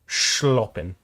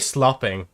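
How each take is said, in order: First: The word begins with an sh sound. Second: The word begins with a plain s sound. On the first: The speaker calls it right. "you put it like a little bit of a C in the middle there" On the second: The speaker calls it wrong. "You don't say slopping"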